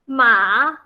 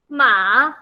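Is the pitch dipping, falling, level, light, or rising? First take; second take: rising; rising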